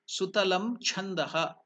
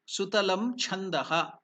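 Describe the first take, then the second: Both takes have the same delivery.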